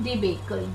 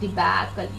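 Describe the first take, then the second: First: The middle vowel sounds like the one in 'debate'. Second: The middle vowel is said with an open mouth. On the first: The speaker calls it wrong. "It is not debacle. Debate से नहीं आया है" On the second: The speaker calls it right. "You open the mouth and say debacle"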